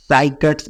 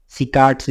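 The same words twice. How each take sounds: First: साइकट्स with an "s" start and long "eye" vowel, SAI-kats; साइकट्स, first syllable rhyming with "sigh"; pronunciation variant. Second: सिकाट्स with a short "si" and long second vowel, si-KAATS; सिकाट्स, opening on short "si", not "sigh"; pronunciation variant. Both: Shown as a demonstration. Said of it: "अलग-अलग pronunciation है".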